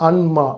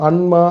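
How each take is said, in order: The two takes are said the same way.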